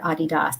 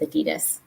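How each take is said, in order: First: Adidas is pronounced the way locals say it. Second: Adidas is pronounced the American way. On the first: "as probably most people here say" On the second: "we like to have a special tone to how we say Adidas"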